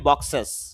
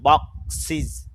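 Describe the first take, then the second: First: The ending has an 'e' vowel, like 'es'. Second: The ending has an 'i' vowel, like 'is'. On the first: The speaker calls it wrong. "না বক্সেস না" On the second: The speaker calls it right. "বক্সিস এরকম"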